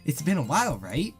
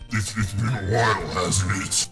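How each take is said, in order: First: It is said in a plain, light voice. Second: It is said in a dark, ominous voice.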